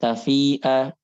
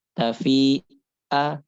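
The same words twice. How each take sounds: First: TAFI'A joined, long "fii", clean 'a; measured hamzah. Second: TAFI'A slow, broken before a forced 'a; exaggerated hamzah. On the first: Teacher gives the proper word, measured hamzah in TAFI'A. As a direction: say "Tafi'a" with a light catch. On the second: Teacher shows the forbidden reading, overdone hamzah in TAFI'A. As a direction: leave a gap in "tafi'a", push the last vowel. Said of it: "itu nggak boleh". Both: Shown as a demonstration.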